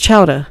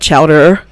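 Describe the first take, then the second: First: It is said Boston-style, with no R sound. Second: It is said with the R sound pronounced.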